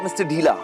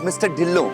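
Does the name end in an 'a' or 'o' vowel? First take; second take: a; o. First: The name ends with an 'a' vowel. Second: The name ends with an 'o' vowel. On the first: The speaker calls it wrong. "it's not Mister Dhila" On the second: The speaker calls it right. "It's Mister Dhillo"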